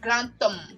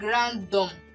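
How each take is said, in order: First: The linking consonant is a voiceless T sound. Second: The linking consonant is a voiced D sound. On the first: The speaker calls it right. "The sound gives a T sound. So it gives something like grantum" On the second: The speaker calls it wrong. "instead of saying grandom, no"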